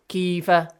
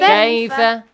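First: The first vowel is a plain short vowel. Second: The first vowel is an ai diphthong. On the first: The speaker calls it wrong. "Do not say kifa" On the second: The speaker calls it right. "There is no kif"

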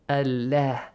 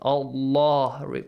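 First: The L is said with a light, thin sound. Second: The L is said with a heavy, full sound. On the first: A kasra comes before the word. "If you have a kasra, read it with an a sound" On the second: A fatha or dhamma comes before the word. "read the word Allah with a heavy sound"

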